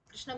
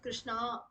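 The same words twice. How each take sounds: First: The final vowel is short. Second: The final vowel is lengthened. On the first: It names the god. The speaker calls it right. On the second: It names a woman. The speaker calls it wrong.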